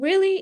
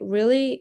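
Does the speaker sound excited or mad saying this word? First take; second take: excited; mad. First: The word is said with an excited pitch. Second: The word is said with an angry pitch. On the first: The speaker is thrilled. "I can be excited is excited" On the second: The speaker is angry. "I could be, you know, mad"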